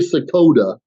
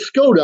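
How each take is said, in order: First: An extra vowel is inserted between S and K. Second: It is said with plain S-K and T sounds. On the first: The speaker calls it wrong. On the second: The speaker calls it right.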